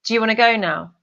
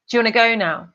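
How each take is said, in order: The two takes are said the same way.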